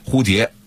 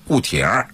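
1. 用标准普通话发音。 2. 用北京话发音。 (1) "普通话的正确的标准发音蝴蝶" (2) "但是北京土话里变了，变成什么了"

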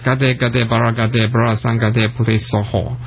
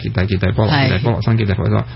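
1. 是用原本的梵文发音念的。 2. 是用粤语的汉字音念的。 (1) "咁就系嗰个梵文嗰个读音" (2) "咁头先我就读翻中文啦"

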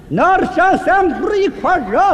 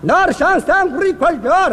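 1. 这个短语说得很慢。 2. 这个短语说得慢。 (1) "再慢点" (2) "慢点"

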